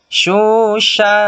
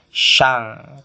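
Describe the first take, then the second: First: It ends with a blurred, unclear nasal sound. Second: It ends with an ng sound. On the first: The speaker calls it right. "tidak jelas eng atau en" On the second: The speaker calls it wrong. "tidak boleh syang"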